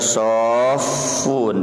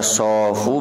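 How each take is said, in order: First: The middle consonant is held long and doubled. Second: The middle consonant is short and single. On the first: "bisa dibaca sofun di tasdid" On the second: "Bisa dibaca sofu"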